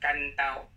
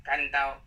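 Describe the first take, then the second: No difference in how they are said.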